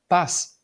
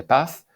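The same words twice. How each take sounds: First: Paz ending in S, pas; seseo. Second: Paz ending in TH, path; Castilian Z. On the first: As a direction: say paz as pas, Latin American style. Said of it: "pronunciar la Z o la C como si fueran S". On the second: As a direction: say paz with interdental Z. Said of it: "en lugar de". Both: Shown as a demonstration.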